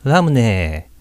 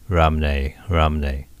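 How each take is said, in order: First: "ラムネ" higher and louder, throat resonance removed; tense the neck slightly and say "ラムネ" in the mouth; resonance switched off. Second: "ラムネ" in a lower English-speaker accent; foreigner's accent. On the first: Teacher showing Japanese voicing, resonance removed. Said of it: "豊かな響きを消して". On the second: Teacher imitating foreigners, English-accented ラムネ. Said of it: "外人風に言うと". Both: Shown as a demonstration.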